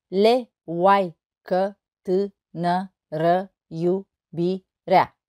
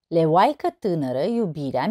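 First: Slow, a gap after every syllable. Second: Said in the usual way. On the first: Shown as a demonstration. Teacher counting syllables of a poem, syllable by syllable. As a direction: break the verse into separate syllables. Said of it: "Nouă silabe". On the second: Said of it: "O altă poezie".

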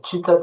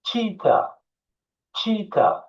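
First: Cheetah read the Turkish way, letter by letter; the wrong Turkish way. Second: Cheetah said as "chee-ta", high; English pronunciation. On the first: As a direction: cheetah spelled out as written in Turkish. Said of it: "Cheetah Türkçesi". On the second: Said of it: "Bakın cheetah demiyorum". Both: Shown as a demonstration.

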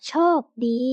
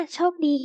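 First: โชคดี sounded out syllable by syllable; reading pronunciation. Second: Said in the usual way. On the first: Shown as a demonstration. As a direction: read โชคดี with a gap between chok and di. (อ่าน โชคดี แยกทีละพยางค์) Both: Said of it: "อ่านว่า".

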